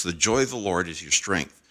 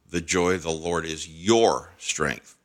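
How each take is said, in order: First: Said in the usual way. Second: "your" set apart and leaned on; stress on YOUR. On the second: Shown as a demonstration. Podcast preacher showing listeners another reading, stress on "your". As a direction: lean hard on the word "your". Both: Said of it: "Listen to it another way".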